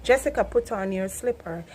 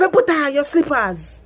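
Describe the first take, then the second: First: Said in the usual way. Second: Louder, higher Patois order; Jamaican mum command. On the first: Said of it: "so I have to, like". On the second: Retold or imitated. Mother ordering her daughter in Patois. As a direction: bark it at the kid. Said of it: "Me say".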